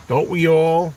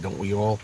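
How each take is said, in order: First: Higher, louder "Don't we all?"; emphatic repeat. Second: Said in the usual way. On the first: Real, not acted. Repeating the question to listeners about stuck songs, higher and louder "Don't we all?". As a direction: lift and punch "Don't we all?".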